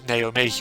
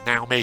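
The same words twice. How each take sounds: First: The name is said in an English way. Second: The name is said in a Japanese way.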